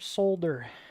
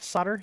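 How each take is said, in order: First: The word is said the British way. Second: The word is said the American way. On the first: "Isn't that what you guys like calling it?" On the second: "Not solder"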